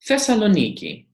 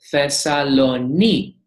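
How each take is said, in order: First: Said in the usual way. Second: 'Thessaloniki' spaced out, leaning hard on NI; stress on NI. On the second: Shown as a demonstration. Greek teacher shows where the accent falls, stress on NI. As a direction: draw out the NI in 'Thessaloniki', detach the final ki. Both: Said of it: "the stress accent is on the iota".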